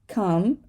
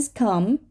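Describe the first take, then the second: No difference in how they are said.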